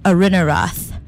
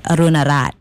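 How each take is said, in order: First: The name is said with an English accent. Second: The name is said with a Laotian accent. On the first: "It's Arunarath" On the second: "said in the Laotian accent"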